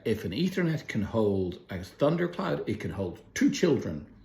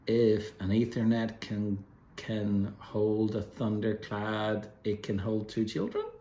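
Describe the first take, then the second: First: It is said in a firm, confident tone. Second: It is said in a hesitant, doubtful tone. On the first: The speaker is certain it will work. "That's a very confident way of saying it" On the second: The speaker doubts it will work. "an unconfident way of saying it"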